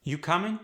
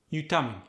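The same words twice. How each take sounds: First: American question tune, "coming" going up; rising question. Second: "coming" falls at the end; Khmer-style question, "coming" going down; no rising tone. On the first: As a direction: pitch rises at the end of "coming". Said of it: "rising pitch at the end". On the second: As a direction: drop the pitch on "coming" despite the question. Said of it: "No rising tone". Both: Shown as a demonstration.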